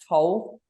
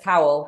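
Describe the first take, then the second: First: The vowel rhymes with goal. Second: The vowel rhymes with vowel. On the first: The speaker calls it right. "It's Jess Toll" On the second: The speaker calls it wrong. "Everyone says towel, but it's not"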